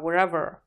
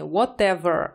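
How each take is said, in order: First: The middle t is softened and blurred. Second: The middle t is pronounced clearly. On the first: "буква to здесь смажется" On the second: "я говорю не whatever"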